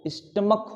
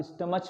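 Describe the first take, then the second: First: स्टमक ending in a hard "k". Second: स्टमच with a soft "ch" ending, as in match; mispronounced ch. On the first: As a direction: close स्टमक on a k, never "ch". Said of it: "सीएच को क पढ़ा गया". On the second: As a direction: end स्टमच on a "ch" sound. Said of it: "लेकिन ये नहीं होता है". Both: Shown as a demonstration.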